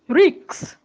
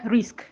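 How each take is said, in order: First: The k sound comes before the s. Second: The k sound comes after the s. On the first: The speaker calls it wrong. "Do not say ricks, that is k, before" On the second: The speaker calls it right. "instead of risk"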